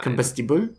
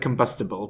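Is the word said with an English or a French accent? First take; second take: French; English. First: It is said with a French accent. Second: It is said with an English accent.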